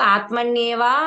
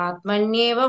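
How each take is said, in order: First: The final vowel is drawn out long. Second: The final vowel is kept short. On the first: The speaker calls it wrong. "అక్కడ దీర్ఘం లేదు" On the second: The speaker calls it right. "ఇప్పుడు బాగానే చెప్పు"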